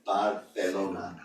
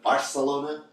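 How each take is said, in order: First: The c is said like a th sound. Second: The c is said like an s sound. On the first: "it's Barcelona ... speaking with a lisp" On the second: "Instead of"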